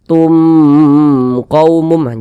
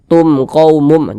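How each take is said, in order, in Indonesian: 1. Bunyi m itu ditahan panjang dan dipanjangkan. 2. Bunyi m itu pendek dan tidak dipanjangkan. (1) "jangan dibaca tum qaumum, jangan dipanjangkan seperti itu" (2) "tidak berdengung, baca pendek saja"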